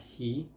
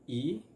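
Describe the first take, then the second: First: The word begins with an h sound. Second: The word begins without an h sound. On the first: "the H plus the E and it's gonna sound like he" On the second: "we eliminate uh, the H sound"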